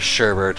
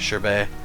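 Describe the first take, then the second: First: The word has an ordinary English pronunciation. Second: The word has a French-style pronunciation. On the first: "some people pronounce that word as sherbet" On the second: "I stick with the French pronunciation"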